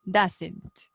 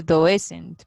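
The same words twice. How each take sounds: First: "doesn't" said DUZ-ent, two syllables; "doesn't" with a short u sound, DUZ-nt; correct pronunciation. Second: "doesn't" said as written, doh-ES-ent; "doesn't" pronounced like its spelling, doh-ES-ent; spelled-out reading. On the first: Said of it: "Pero se dice doesn't". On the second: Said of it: "Qué se escribe doesn't". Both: Shown as a demonstration.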